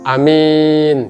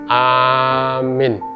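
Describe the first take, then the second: First: The first vowel is short, the second long. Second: The first vowel is long, the second short. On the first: It means the honest one. "A-nya panjang jadi pendek, min-nya pendek jadi panjang" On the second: It means the one who gives safety. "A-nya panjang, ya, min-nya pendek"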